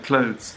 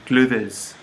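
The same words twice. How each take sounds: First: Clothes is said plainly with no extra sounds. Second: Clothes is said with extra letters sounded out. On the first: "I'm wearing my clothes" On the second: "A French person would say clothes"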